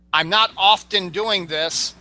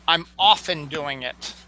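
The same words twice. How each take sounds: First: Slowly, with "often" as OFF-ten; deliberate demo of "often" with its T spoken; sounded T. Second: "often" said as OFF-en; deliberate demo of "often" without a T; silent T. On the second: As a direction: drop the T from "often". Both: Shown as a demonstration. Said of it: "The T is silent".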